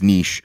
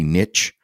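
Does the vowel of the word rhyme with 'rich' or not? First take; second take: not rich; rich. First: The word does not rhyme with 'rich'. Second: The word rhymes with 'rich'. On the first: "I think it's niche" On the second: "Americans tend to say niche"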